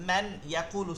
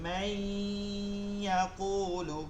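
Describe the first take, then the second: First: The n sound is kept before the y. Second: The n sound merges nasally into the y. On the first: "মান ইয়াকুলু ছিল" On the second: "মান ইয়াকুলু হবে মাই ইয়াকুলু"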